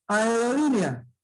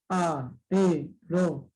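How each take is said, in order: First: Said in the usual way. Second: "Aerolínea" slowly broken up as a, e, ro, lí, ne, a; six separate beats in "Aerolínea"; split into syllables. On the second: Shown as a demonstration. ("Aerolínea" silabeado despacio: a, e, ro, lí, ne, a) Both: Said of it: "Seis sílabas".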